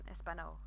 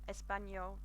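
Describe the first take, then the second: First: The n is plain with no y sound. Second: The n is followed by a y sound. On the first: The speaker calls it wrong. "rather than Espanol, which sounds awful" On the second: The speaker calls it right. "imagine that you've got the N and a Y, a Y sound afterwards"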